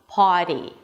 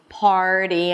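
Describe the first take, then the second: First: No r sound follows the first vowel. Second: An r sound follows the first vowel.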